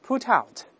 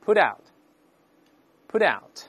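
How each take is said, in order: First: Said in the usual way. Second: Faster read. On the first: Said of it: "我们大声读一下". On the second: Shown as a demonstration. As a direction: put out, put out linked, the T lightly voiced. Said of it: "再读快点".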